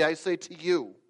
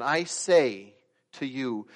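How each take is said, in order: First: Said in the usual way. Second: Slow, weighted "I say", then "to you"; louder, deliberate stress on "I say" with a break before "to you"; emphatic re-reading. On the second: Shown as a demonstration. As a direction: lean hard on "I" and "say", slowly. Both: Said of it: "Let me read that word again".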